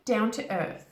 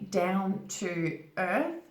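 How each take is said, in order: First: The words run together smoothly and relaxed. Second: The words are said carefully, each one apart. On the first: The speaker calls it right. "More naturally" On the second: The speaker calls it wrong. "it's not natural to say down to earth. You could say it like that"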